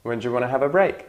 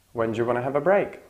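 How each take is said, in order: First: Said in the usual way. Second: Fast relaxed. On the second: Shown as a demonstration. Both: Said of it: "the last word is prominent".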